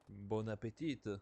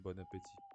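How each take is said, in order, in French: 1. Elle est prononcée avec un accent étranger, non français. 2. Elle est prononcée avec un accent français natif. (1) "c'est pas comme ça qu'on dit en français" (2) "c'est bon appétit"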